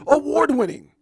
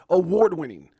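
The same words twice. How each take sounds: First: High booming hype voice, award pushed up; new announcer voice. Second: Plain hype call. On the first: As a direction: belt it out like a ring announcer. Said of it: "I don't know where that voice came". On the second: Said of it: "That sounds way better". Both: Shown as a demonstration.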